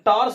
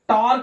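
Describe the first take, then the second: First: The word ends with an s sound. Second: The word ends with a k sound. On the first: "टार्स नहीं पढ़ेंगे" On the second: "यहां टार्क नहीं पढ़ेंगे"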